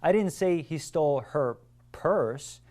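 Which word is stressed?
purse. The word "purse" is stressed. It was something other than a purse that was stolen. "It was a suitcase that she was carrying and this person stole"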